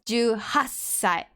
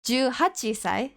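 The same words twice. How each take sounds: First: The number eight is shortened and slurred. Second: The number eight is said in full. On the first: The speaker calls it right. "You s- sort of slur it down" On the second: The speaker calls it wrong. "you don't say the full number"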